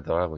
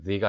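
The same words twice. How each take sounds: First: "the" said as "thuh", with a neutral vowel; "thuh" pronunciation. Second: "the" said as "thee", with an ee vowel; "thee" pronunciation. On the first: Teacher reading "the" before a semi-consonant, as "thuh". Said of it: "the가 아니라 the라고 있습니다". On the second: Teacher showing learners the form not used here, "the" as "thee". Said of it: "그냥 the가 아니라 the라고". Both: Shown as a demonstration.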